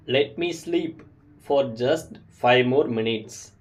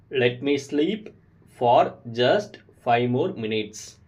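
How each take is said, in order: First: Slow and clear, for learners to copy; slow model sentence. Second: Slow, split into two chunks; slow repeat. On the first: Teacher models a sleepy request slowly for learners. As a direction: say it slowly for beginners to repeat. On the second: Teacher repeats the phrase in chunks for learners. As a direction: pause after sleep, then finish slowly. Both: Shown as a demonstration. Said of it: "repeat these sentences with me".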